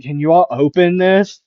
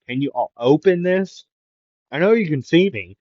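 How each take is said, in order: First: Loud, higher plea with rising end; raised voice, pitched-up question; calling out. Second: Higher, mildly raised plea; half-called demand, pitched up; insistent calling. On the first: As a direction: call through thick glass to be let in. Character calling through the glass. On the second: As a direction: pester them through the glass. Character pleading through the glass. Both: Acted.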